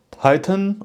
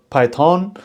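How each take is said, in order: First: Python with a short, weak "-thən" ending; reduced second syllable. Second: Python ending in a full, long "-thawn"; full second syllable. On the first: Presenter names one way people say it, Python ending in a weak "-tən". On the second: Presenter offers the other way people say it, Python ending in a full "-tawn". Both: Shown as a demonstration. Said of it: "some people say Python".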